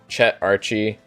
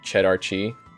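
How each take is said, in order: First: It is said as two separate name words. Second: It is run together to sound like cheddar cheese.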